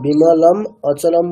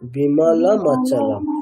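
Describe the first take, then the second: First: The two words are said separately, not joined. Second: The two words are joined into one sound. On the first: The speaker calls it wrong. "বিমলম অচলম বললে সেটাও ভুল ... ভেঙে দিচ্ছি" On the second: The speaker calls it right. "তাহলে কি বলতে হবে?"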